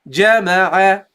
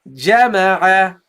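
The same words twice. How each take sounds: No difference in how they are said.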